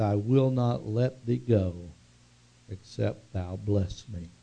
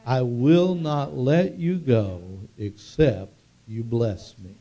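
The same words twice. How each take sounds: First: Said in the usual way. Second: Congregation echoing slowly, leaning on will and bless; slow unison echo with "will" and "bless" weighted; slow call-and-response repeat. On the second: Shown as a demonstration. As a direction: say it back together, stressing "will" and "bless". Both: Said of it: "Say that with me".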